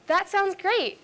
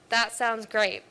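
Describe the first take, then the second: First: It is said in a happy, enthusiastic tone. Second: It is said in a flat, sarcastic tone. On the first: The speaker really means it. "the first one, it was very happy" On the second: The speaker does not really mean it. "the second one is much more negative. It's not as enthusiastic. It's likely sarcastic"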